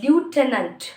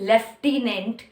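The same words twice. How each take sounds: First: It is said in an American accent. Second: It is said in a British accent. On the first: "in the American accent, they say lieutenant" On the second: "In the British English, they say lieutenant"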